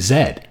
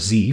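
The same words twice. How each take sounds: First: The letter is said the non-American way. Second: The letter is said the American way.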